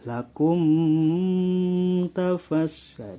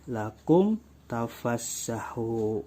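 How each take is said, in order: First: The m is held with a nasal hum. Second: The m is released cleanly without nasal hum. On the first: The speaker calls it wrong. "tidak boleh lakum tafassah, itu tidak boleh" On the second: The speaker calls it right. "Jadi langsung lakum tafassahu"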